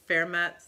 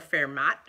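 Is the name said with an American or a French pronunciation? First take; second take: French; American. First: The name is said with a French pronunciation. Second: The name is said with an American Midwest pronunciation. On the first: "if you speak French" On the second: "if you grew up in the Midwest"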